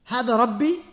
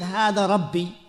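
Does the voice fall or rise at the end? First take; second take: rise; fall. First: The voice rises at the end like a question. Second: The voice falls at the end like a statement. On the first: The listeners are asked to reflect whether this could be a Lord. The speaker calls it right. "the same sentence, but different way of saying it" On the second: The speaker claims this is his Lord. The speaker calls it wrong. "he's not saying Hada Rabbi"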